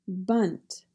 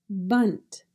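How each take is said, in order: No difference in how they are said.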